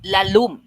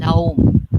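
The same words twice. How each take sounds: First: "lalum" with a clear L in the middle; Bisaya pronunciation. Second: "Laum" with the middle L dropped, two syllables; Cebuano pronunciation. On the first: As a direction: say "lalum" with every sound, la-lum. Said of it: "deep is lalum". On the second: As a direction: say "Laum" the Cebu way, no L. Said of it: "So it becomes laum". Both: Shown as a demonstration.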